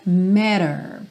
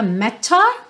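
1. Ela é dita com sotaque americano. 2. Ela é dita com sotaque britânico. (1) "na pronúncia mais tipicamente americana" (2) "numa pronúncia tipicamente britânica"

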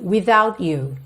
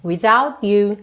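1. O t é concluído com clareza antes de o you começar. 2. O t é concluído com clareza antes de o you começar.

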